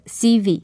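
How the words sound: The letters are named the English way.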